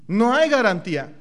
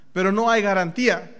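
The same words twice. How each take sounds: First: Hay punched, falling firmly; no hay garantía with hay hit hard; stress on hay. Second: Hay hit again, louder and falling; stress on hay. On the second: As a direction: lean on hay once more. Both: Shown as a demonstration.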